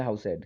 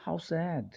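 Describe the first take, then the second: First: Said in the usual way. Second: How sad with a higher, felt sorrow; sad exclamation. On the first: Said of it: "आप इसको ऐसे नहीं पढ़ेंगे". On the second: Shown as a demonstration. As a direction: let the sadness show in How sad. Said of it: "इस तरीके से एक भाव नज़र". (दुख भरे भाव से "How sad")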